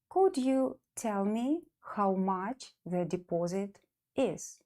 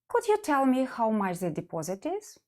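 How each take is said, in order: First: The sentence is said slowly. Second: The sentence is said at normal speed.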